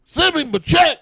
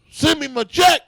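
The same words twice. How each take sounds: First: Much higher and a bit louder, gleeful hammed-up demand; mock demand again. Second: Much higher, indignant, rising snap of a demand; hammed-up demand for the money back; mock demand. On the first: Teller repeating the Cosby punchline to host, higher and gleeful. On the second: Cosby imagined demanding his money back, much higher mock indignation. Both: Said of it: "That's what I would say if I was him".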